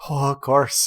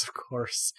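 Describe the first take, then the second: First: A snide "Oh, of course" at normal volume; sarcastic. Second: "of course" dropped to a whispered mutter, much softer; muttered under the breath. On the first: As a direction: throw it out with mock agreement. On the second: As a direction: grumble it to yourself. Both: Acted. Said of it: "And she goes".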